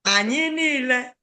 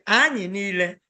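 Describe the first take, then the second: First: "Anyị niile" rising high and held on "niile"; high sustained tune through "niile"; correct intonation. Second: "Anyị" stressed on its first syllable; "Anyị niile" with the front of "Anyị" leaned on; learner's usual mistake. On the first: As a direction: model "Anyị niile" with a raised, lengthened "niile". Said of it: "you are using the intonation". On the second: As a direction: imitate the learner's wrong tune on "Anyị niile". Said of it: "You always say". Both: Shown as a demonstration.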